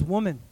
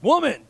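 First: Tender address. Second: Sharp, loud, high bark; mock demanding shout; harsh mock call. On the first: Retold or imitated. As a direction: address her tenderly, without force. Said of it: "he's very tenderly". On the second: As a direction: bark it as a brusque summons, louder and higher. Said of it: "it wasn't like".

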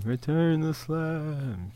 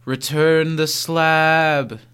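First: Very soft, slow echo. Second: Slow, drawn-out quote; slow catchphrase. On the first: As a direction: breathe the words back quietly. Echoing catchphrase, very soft. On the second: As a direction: stretch each word out slowly. Quoting catchphrase slowly. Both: Acted.

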